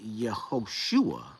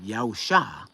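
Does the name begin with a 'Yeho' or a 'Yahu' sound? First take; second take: Yeho; Yahu. First: The name begins with a 'Yeho' sound. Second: The name begins with a 'Yahu' sound. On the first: The name means the divine name is salvation or opulence. "when they insert these vowels in there and get Yehoshua" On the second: The name can only mean the divine name is salvation. "the only thing it could mean is Yao is salvation"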